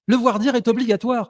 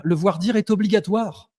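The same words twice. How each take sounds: First: Higher, firmer restatement; emphatic insistence. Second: Said in the usual way. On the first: Real, not acted. Debater restating a legal rule to a resisting opponent, emphatic insistence. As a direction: lay the rule down in a raised pitch. Repeats the rule over objections.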